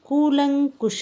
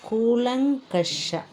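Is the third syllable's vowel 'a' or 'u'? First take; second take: u; a. First: The third syllable has a 'u' vowel. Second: The third syllable has an 'a' vowel. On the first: The speaker calls it wrong. "ಅಂತ ಹೇಳ್ತೇವೆ" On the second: The speaker calls it right. "ಸರಿಯಾದ ಪದ"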